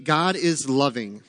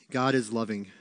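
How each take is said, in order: First: GOD is loving, slow and weighty, each word set down; slow emphatic statement. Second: Said in the usual way. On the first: Shown as a demonstration. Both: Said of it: "Number thirteen".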